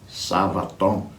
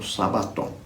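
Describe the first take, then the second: First: The middle consonant is a v sound. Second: The middle consonant is a b sound. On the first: This is the original Greek pronunciation. "tem um som de V lá no grego" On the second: This is the form as written in transliteration. "está transliterado aí como Sabaton"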